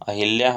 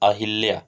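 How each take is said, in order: No difference in how they are said.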